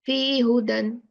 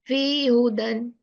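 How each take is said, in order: First: The syllable 'hi' is left out. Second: The same.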